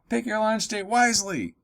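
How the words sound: It is read in a lively, excited tone. The choice is thrilling. "with an exclamation point, it's like, whoa, this is exciting"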